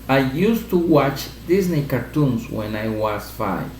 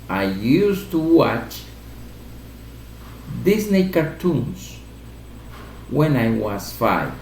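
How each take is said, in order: First: It is spoken at a normal, quicker pace. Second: It is spoken at a slower, deliberate pace.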